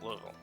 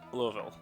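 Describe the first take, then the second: First: The name is squeezed short, with sounds dropped. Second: Every syllable of the name is said in full. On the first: The speaker calls it right. "You've got to take out all the letters of it" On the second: The speaker calls it wrong. "they'd be upset at my pronunciation of that city"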